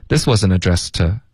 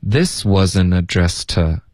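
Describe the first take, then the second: First: Said in the usual way. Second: "This wasn't addressed to" slow, to weakened to a light t; slow linked demo. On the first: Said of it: "我们会弱读成t". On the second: Shown as a demonstration. Teacher modelling reduced to for students, slow and careful. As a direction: draw it out slowly with a reduced to. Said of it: "to，我们会弱读成t".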